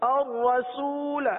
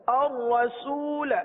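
Both takes have the same delivery.

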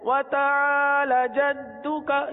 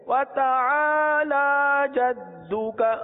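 First: The vowel after the l is short. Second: The vowel after the l is drawn out long. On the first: The speaker calls it wrong. "ایک غلطی پہلے بھی عرض کی گئی تھی جو عموماً ہوتی ہے" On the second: The speaker calls it right. "کھڑی حرکات کو ایک الف تک کھینچ کر پڑھتے ہیں"

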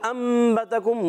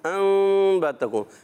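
First: The n is fully changed to an m. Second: The n is a hidden nasal before b. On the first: The speaker calls it right. "مگر بہتر انبتکم مکمل اخلاب کر دیں" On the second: The speaker calls it wrong. "اس کو بعض اخوا کرتے ہیں"

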